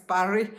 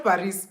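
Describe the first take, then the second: First: "Paris" with a silent s; French-style pronunciation. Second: "Paris" with the final s sounded; English pronunciation. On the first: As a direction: say "Paris" as pa-REE, no final s. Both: Shown as a demonstration. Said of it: "Not Paris".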